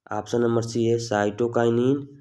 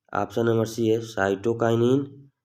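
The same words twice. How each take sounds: Both takes have the same delivery.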